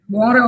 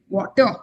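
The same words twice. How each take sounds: First: Said in an American accent with a softened T. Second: Said in an Indian-British accent with a clear T. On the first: "But in American English, I believe you say water" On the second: "in Indian Indian or British English, we would say water"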